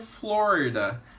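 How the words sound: The name is pronounced the English way. "em inglês a gente pronuncia"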